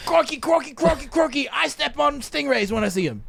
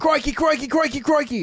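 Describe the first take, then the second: First: Crikey yelled in a put-on Australian accent like a wildlife host; mock Australian accent. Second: Hammed-up Australian accent, higher, with a laugh in it; crikey in a big put-on Australian accent, played for laughs; mock Australian accent. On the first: Host riffing on the Australian story with a hammed-up Australian accent. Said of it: "extra Australian". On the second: Host mimicking the Australian listener's story in a hammed-up Australian accent. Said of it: "Australians actually say crikey".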